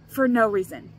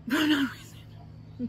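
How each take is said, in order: First: Said in the usual way. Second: Slow, laughing through the words; laughing repeat, amused at herself. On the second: Real, not acted. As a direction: giggle it out as an aside.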